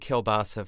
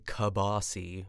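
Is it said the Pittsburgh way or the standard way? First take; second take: standard; Pittsburgh. First: It is said the standard way. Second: It is said the Pittsburgh way.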